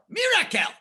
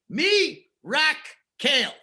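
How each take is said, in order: First: The parts are said quickly as one word. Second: Three parts are said slowly with pauses between.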